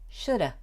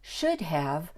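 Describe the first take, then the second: First: 'Have' shrinks to a short 'a' sound. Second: Both words are said fully and clearly. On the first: "is often pronounced shoulda"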